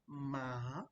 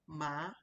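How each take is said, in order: First: The pitch dips down, then rises again. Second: The pitch rises through the syllable. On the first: "Then you have the down, up" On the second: "ma is going up"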